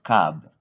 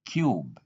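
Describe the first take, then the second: First: Cub with a short uh; wrong cub. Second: Cube with a long yoo; cube said kyoob; correct cube. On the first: Teacher showing the mistake, cub with a short uh. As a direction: cub said kuhb. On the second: Teacher giving the right form, cube said kyoob. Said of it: "not cub". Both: Shown as a demonstration.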